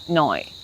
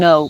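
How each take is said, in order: First: The vowel glides toward an oy sound. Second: The vowel is a plain o sound.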